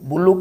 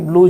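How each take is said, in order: First: It is said as two syllables, 'bul-lu'. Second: It is said as one syllable, 'blue'.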